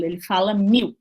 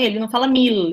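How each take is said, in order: First: "mil" ending in a U sound, like "miu"; vocalised L. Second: "mil" with a clear final L; "mil" with the L fully pronounced; full final L. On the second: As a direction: say "mil" ending on a crisp L. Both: Shown as a demonstration.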